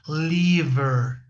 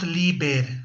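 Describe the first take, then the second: First: The middle consonant is a v sound. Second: The middle consonant is a b sound. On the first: The speaker calls it right. "es con la B dentilabial" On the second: The speaker calls it wrong. "no es liber con la B labial"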